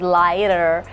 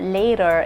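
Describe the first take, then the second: First: The vowel is stretched and overpronounced. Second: The vowel is said plainly and naturally. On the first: The speaker calls it wrong. "by overpronouncing vowels, ... that is too much" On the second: The speaker calls it right. "instead of saying later or later"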